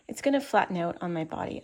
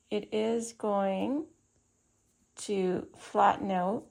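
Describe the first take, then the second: First: Said in the usual way. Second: Talking around a pin in the mouth; slow words past a pin held in the lips. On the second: Real, not acted. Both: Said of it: "I have a pin in my mouth".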